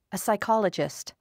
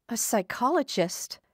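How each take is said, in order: First: Said in the usual way. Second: Psychologist? lifted higher in a startled question; alarmed echo. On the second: A narrator's reading. Frightened patient echoing the doctor's job, alarmed. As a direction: repeat the word as if it frightens you.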